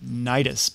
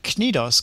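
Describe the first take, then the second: First: The last syllable sounds like 'dus'. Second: The last syllable sounds like 'dos'. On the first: The speaker calls it wrong. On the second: The speaker calls it right.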